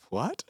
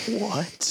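First: Mock German "What?", pitched up; German accent. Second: Mock-horrified, high-pitched "What?". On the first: German gamer answering the joke, in German accent. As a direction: imitate a puzzled German, lifting the end in question. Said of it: "like, a German guy". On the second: Gamer hears the George Bush joke, horrified. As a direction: imitate a horrified stranger, pitched well up. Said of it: "Like, horrified".

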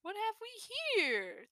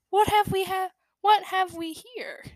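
First: Put-on soft, dry dusty old fox voice; voice like spilling dust. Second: Voice like spilling dust. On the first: Storyteller greets the kits, soft dusty voice. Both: A narrator's reading. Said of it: "with a voice like spilling dust".

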